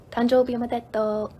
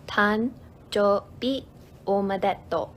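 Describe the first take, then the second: First: Said in the usual way. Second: "Tanjoubi omedetou" slowly, in separate pieces; syllable by syllable. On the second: Shown as a demonstration. Teacher answering a birthday question, syllable by syllable. Phrase broken down for learners.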